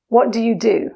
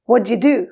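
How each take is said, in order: First: It is said at a normal, careful pace. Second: It is said quickly, with the words run together.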